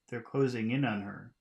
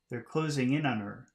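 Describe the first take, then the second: First: The words are reduced and run together smoothly. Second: The words are reduced and run together smoothly.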